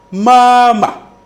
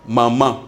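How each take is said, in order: First: "mama" with a long, high, level first syllable. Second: Said in the usual way. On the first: Shown as a demonstration. Teacher gives the Chinese word for mother, first-tone "mama". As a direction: hold the first syllable of "mama" high and loud, the second short. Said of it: "le premier ma". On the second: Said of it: "le premier ma désigne".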